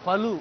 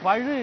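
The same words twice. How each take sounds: First: The consonant is a plain l sound. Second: The consonant is a curled-back retroflex zh sound. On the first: The speaker calls it wrong. "இல்ல" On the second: The speaker calls it right. "உங்களுக்கு இந்த ழானா வராதா?"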